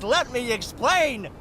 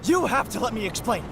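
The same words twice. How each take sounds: First: Slow, drawn-out "Let me explain."; emphatic quoting. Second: Quick, pleading rush; urgent plea. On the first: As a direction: stretch "explain" out to make the point. Quotes the stock plea pointedly. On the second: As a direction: hurry it out before they walk off. Urgent plea after being caught. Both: Acted.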